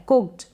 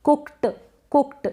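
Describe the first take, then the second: First: कुक्ड as "kukt", T kept small; slight final T. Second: कुक्ड with the final T fully released, "kuk-ta"; wrong take, a heavy separate t ending कुक्ड; overdone T. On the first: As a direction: say कुक्ड with a barely released t. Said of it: "इस तरीके से पढ़ेंगे". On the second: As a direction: say कुक्ड with too much T. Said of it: "इस तरीके से गलत हो जाए". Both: Shown as a demonstration.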